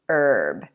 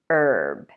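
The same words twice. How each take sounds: First: It is said the American way, H silent. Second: It is said the American way, H silent.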